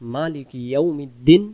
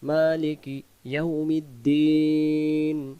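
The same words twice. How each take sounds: First: The vowel in 'din' is short. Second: The vowel in 'din' is drawn out. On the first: The speaker calls it wrong. "ইয়া অক্ষরটাকে এখানে বাদ চলে গেছে" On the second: The speaker calls it right. "এক আলিফ হলেও টান দিতেই হবে"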